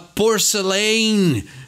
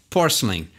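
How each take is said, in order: First: Every letter is pronounced forcefully and fully. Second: Some letters are reduced and the word sounds soft. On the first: The speaker calls it wrong. "o nosso impulso brasileiro é falar porcelain, querer pronunciar tudo com aquele vigor" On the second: The speaker calls it right. "bem como o Anthony fala aí, porcelain. Então é um jeitinho bem mais uh, suave"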